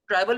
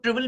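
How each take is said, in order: First: "ट्राइवल", opening like the word "try"; TRY-vul pronunciation. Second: "ट्रिवल", opening like "triv" in trivia; TRIV-ul pronunciation. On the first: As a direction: say "ट्राइवल" with the "eye" vowel. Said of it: "या इसको बहुत से लोग ट्रिवल भी कहते हैं". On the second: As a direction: say "ट्रिवल" with a short "i". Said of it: "बहुत से लोग ट्रिवल भी कहते हैं". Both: Shown as a demonstration.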